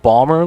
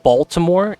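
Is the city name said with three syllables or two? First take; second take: two; three. First: The name is squeezed into two syllables. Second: The name is said with three full syllables. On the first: The speaker calls it right. "It's pronounced Ballmer, like the owner of the Clippers" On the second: The speaker calls it wrong. "So it's not Baltimore"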